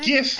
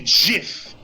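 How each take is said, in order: First: The first sound comes out soft and gentle. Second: The first sound comes out strong and forceful. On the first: "it is much softer to pronounce" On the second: "it sounds much stronger"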